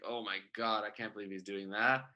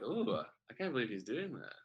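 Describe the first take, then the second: First: It sounds dismayed and shocked. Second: It sounds excited and intrigued.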